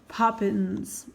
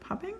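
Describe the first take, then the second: First: The word ends with an 'ns' sound. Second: The word ends with an 'ng' sound. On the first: The speaker calls it right. "I said Poppins. I said it right" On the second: The speaker calls it wrong. "Not popping. I'm like, popping? No"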